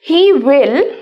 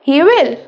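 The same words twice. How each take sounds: First: Both words are said fully and separately. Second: The words are joined into one short syllable.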